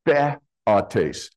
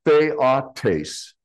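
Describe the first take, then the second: First: Theotes slowed, opened with a short "theh"; short-E contrast. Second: Theotes opened with "thay", rhyming with day; long-A diphthong. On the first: Preacher contrasting the top word, short-E theotes. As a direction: say theotes as THEH, then ah-tace. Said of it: "instead of theotes". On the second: Preacher showing the bottom word's diphthong, long-A theotes. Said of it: "it's pronounced the same way". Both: Shown as a demonstration.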